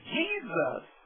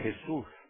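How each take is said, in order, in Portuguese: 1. O nome é falado com pronúncia inglesa. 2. O nome é falado com pronúncia espanhola. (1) "em inglês Jesus" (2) "em espanhol é Jesus"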